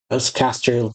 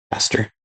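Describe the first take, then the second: First: "West Castor" read out unsure; first try at the name. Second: "Castor" repeated quietly to check it; softer retry of the name. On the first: Reading the castle's name off the page, unsure of "Castor". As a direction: sound out "West Castor" haltingly. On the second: Rechecking the castle's name, a softer "Castor". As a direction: try "Castor" again, softer. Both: Shown as a demonstration. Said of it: "The West Castle near the Western Village".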